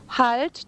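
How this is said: It is said softly as a pleading request.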